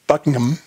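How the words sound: It is said the British way.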